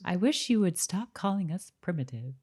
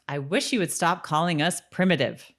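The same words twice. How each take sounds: First: It is said in a nice tone. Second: It is said in a harsh tone.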